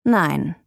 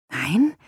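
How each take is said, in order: First: Short, falling, final no; firm refusal. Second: NEIN rising as a question; incredulous question. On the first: Man refuses the flat seeker, firm flat no. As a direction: turn the visitor down without raising the voice. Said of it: "schüttelte langsam den Kopf". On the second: Visitor echoes the man's refusal, incredulous rising NEIN. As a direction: throw NEIN back with a rising, disbelieving tune. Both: A narrator's reading.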